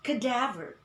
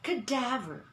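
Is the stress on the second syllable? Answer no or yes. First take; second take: yes; yes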